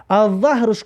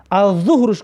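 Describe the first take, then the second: First: الظهرش with an a, "az-zahr"; a vowel. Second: الظهرش with a u, "az-zuhr"; u vowel. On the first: Teacher showing learners the word for back, الظهرش with a. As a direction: say الظهرش as "zahr", fatha on the first letter. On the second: Teacher showing learners the noon-prayer word, الظهرش with u. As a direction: say الظهرش as "zuhr", damma on the first letter. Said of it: "یعنی ضمه بمونه". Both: Shown as a demonstration.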